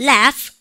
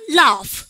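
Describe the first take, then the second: First: "laugh" with a front "a", as "laef"; American-style "laugh"; American pronunciation. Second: "laugh" with a long "ah", as "lahf"; British-style "laugh"; British pronunciation. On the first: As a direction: say "laugh" with the vowel of "cat". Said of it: "미국 애들은". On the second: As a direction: say "laugh" with a broad back A. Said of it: "영국 애들". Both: Shown as a demonstration.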